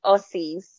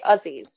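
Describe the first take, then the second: First: Aussies with a hissing s sound; wrong pronunciation. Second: Aussies with a buzzing z sound; correct pronunciation. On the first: [name] shows co-host how not to say it, s sound in Aussies. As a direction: say Aussies as "Ossies". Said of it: "you say Aussies". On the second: [name] shows co-host how it is said, z sound in Aussies. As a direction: say Aussies as "Ozzies". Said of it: "you don't say Aussies". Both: Shown as a demonstration.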